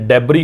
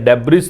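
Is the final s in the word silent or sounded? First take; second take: silent; sounded. First: The word ends without an s sound. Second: The word ends with an s sound. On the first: The speaker calls it right. "इसका उच्चारण जो है डेब्री होता है" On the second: The speaker calls it wrong. "डेब्रिस नहीं होता है"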